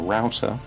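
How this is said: It is said in an American pronunciation. "which you might call a router"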